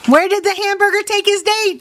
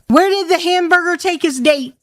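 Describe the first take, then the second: First: Higher, pushing the question again; insistent repeat. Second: Said in the usual way. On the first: Real, not acted. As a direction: demand an answer to the riddle. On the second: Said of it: "Where did the hamburger take his date, Jordy?".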